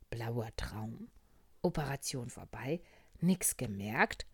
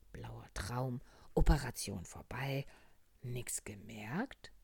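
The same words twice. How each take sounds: The two takes are said the same way.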